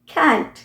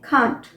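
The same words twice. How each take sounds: First: It is said with an American accent. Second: It is said with a British accent.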